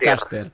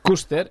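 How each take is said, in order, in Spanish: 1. El nombre se dice con una pronunciación inglesa. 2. El nombre se dice con una pronunciación catalana. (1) "jo vaig fer-ho paluïdor anglès" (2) "el senyor Ricardo va fer paluïdor d'aquí"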